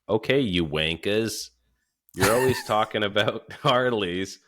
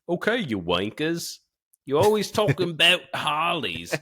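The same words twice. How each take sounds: First: It is read in the speaker's ordinary accent. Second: It is read in a put-on British accent.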